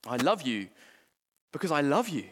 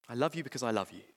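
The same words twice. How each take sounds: First: Said in the usual way. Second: Softer and lower, tender; tender repeat. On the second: Acted. God tenderly repeating his love to his children, softly. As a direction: say it again gently, like a father. Quoting God's words again, softer.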